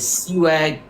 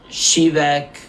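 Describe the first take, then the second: First: The name begins with a plain s sound. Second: The name begins with an sh sound. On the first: This is how the speaker says the name. "I pronounce it as Siwek" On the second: This is how the name is said in Poland. "if you're in Poland, it's pronounced Shivek"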